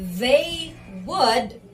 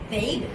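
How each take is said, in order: First: Both words are said in full. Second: The words are shortened into one syllable. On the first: "instead of they would" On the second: "maging natural at parang native speaker, you can use contraction"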